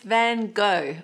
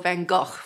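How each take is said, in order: First: The name is said the usual English way. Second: The name is said closer to the Dutch way.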